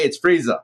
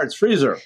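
First: "freezer" said as freeza, no final R; higher-pitched "freezer" with an open -ah ending. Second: "freezer" with the final R clearly sounded; higher-pitched "freezer", hard R ending. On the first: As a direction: drop the R: freezer becomes free-zah. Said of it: "if it ends with an A". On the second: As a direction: pronounce the R at the end of freezer. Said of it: "If it ends with an R". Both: Shown as a demonstration.

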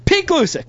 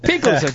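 First: High announcer name call; announcer intro. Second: Said in the usual way. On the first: Acted. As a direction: announce the co-host with flair. Introducing co-host with fanfare.

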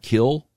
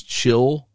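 First: "kill" starting with a hard K; contrasting KILL. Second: "chill" starting with a CH sound; first syllable CHILL. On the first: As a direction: say "kill" with K in place of CH. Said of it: "not kill". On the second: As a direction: say "chill" alone, as in children. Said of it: "word children is chill". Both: Shown as a demonstration.

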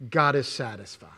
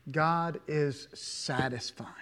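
First: Said in the usual way. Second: Slow, hushed whisper; a slow reverent whisper on the repeat. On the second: Shown as a demonstration. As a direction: breathe it out slowly as a whisper. Repeats the line as a hush.

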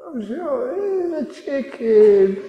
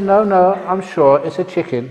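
First: High, slow, tearful whimper; wife about to cry, still insisting on the chicken; teary wife. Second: Insistent wife. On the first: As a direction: plead on the verge of tears. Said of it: "she started to get teary". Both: Acted.

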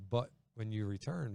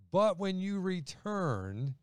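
First: "but when you return" dropped, soft and low; softly missed. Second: But when you return, slow and high; slow stressed phrase. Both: Retold or imitated. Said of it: "and Peter missed the".

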